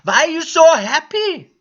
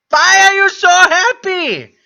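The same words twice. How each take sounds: First: It is said at normal, quieter volume. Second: It is said a little louder.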